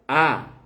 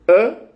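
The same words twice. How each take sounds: First: The vowel is long. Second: The vowel is short.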